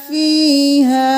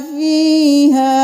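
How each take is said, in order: Both takes have the same delivery.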